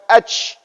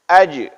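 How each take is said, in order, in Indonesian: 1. Bunyi j di akhir berangin, seperti sh. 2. Bunyi j di akhir tegas, tanpa udara yang keluar. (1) "bukan aj. Aj itu shin" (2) "jangan kita anginkan"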